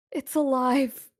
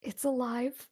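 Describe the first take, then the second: First: Loud, high, desperate repeat; terrified warning. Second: High-pitched, frightened warning, held back; terrified warning. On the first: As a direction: raise it to a frightened, forceful cry. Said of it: "and she looks terrified". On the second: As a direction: warn them fearfully, not yet at full force. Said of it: "she w-, whispers to you". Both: Acted.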